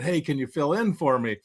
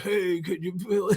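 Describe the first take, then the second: First: It is said in a normal voice. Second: It is said in a weak, faint voice.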